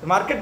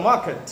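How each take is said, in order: First: মার্কেট with the R sounded, "mar-ket"; everyday Bengali pronunciation. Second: মার্কেট with silent R, "maa-ket"; corrected pronunciation. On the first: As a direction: pronounce the R in মার্কেট. (মার্কেট, 'র' স্পষ্ট বাঙালি উচ্চারণে) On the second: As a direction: drop the R from মার্কেট. (মার্কেট, 'র' বাদ দিয়ে 'মাকেট') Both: Shown as a demonstration. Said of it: "মার্কেট তো নয় কথা".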